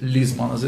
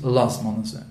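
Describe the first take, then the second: First: The first vowel is an 'i' sound. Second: The first vowel is an 'a' sound. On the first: This follows one legal opinion. "есть мнение, которое говорит, что надо говорить «лизманазе»" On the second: This follows the custom in the Land of Israel. "специальная традиция, по крайней мере, в земле Израиля, говорить «лазманазе»"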